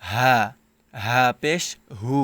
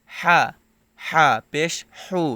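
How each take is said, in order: First: হা and হু with an open, unpressed h; light open h in হা; big ha. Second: হা and হু with a tight mid-throat h; strong rasped h in হা; small ha, pressed. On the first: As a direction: say হা পেশ হু with a plain h. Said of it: "এটা হচ্ছে বড় হা". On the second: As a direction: squeeze the h of হা and হু in the throat. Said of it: "এটা হচ্ছে ছোট হা". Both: Shown as a demonstration.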